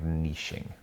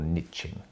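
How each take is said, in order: First: It is said with a non-American pronunciation. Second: It is said with an American pronunciation.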